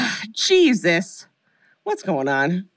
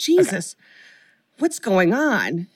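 First: It is said casually, tossed off, unconcerned. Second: It is said with alarm, like real fear.

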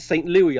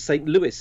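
First: The name is said the British or French way. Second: The name is said the American way. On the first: "I pronounce it St. Louis. ... would be the French pronounced or British pronounced" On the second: "I think you pronounce it as St. Louis in the States"

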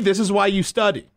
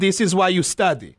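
First: It is said in the speaker's plain accent. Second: It is said in an Israeli accent.

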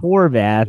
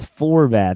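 First: The name begins with an H sound. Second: The name begins with an F sound. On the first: The speaker calls it wrong. "Not Horvath" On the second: The speaker calls it right. "It's Forvath. There's an F"

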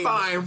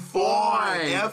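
First: The vowel is a plain 'eye' sound. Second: The vowel is a drawn-out 'oy' sound. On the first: Something is merely okay. "Not fine" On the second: Someone is attractive.

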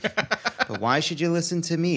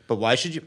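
First: It is said in a put-on Jewish mom voice. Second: It is said in a plain reading voice.

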